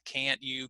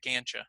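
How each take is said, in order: First: The t and y are said separately, more slowly. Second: The t and y blend into a ch sound, faster.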